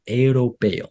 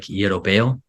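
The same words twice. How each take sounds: First: "europeo" carefully in proper Spanish, falling at the end; corrected Spanish pronunciation. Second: "Europeo" in a gringo accent, ending on a rise; gringo pronunciation. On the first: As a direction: say "europeo" the Spanish way, without gringo sounds. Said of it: "she taught me that I was saying it". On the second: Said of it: "like, really gringo". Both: Shown as a demonstration.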